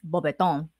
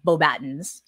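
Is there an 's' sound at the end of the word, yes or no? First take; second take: no; yes. First: The word ends without an 's' sound. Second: The word ends with an 's' sound. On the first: The speaker calls it right. "It's Beaubaton" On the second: The speaker calls it wrong. "not Beaubatons or academy, whatever he says"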